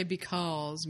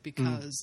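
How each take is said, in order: First: "because" with a Southern drawled aw. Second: "because" with the American uh vowel, be-KUZ. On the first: Co-host guessing how a Southerner says it, Southern "because". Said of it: "If he was Southern, he would say". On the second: Co-host showing the American way, "because" as be-KUZ. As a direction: say "because" with a short, unrounded second vowel. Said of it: "the way an American would say it". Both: Shown as a demonstration.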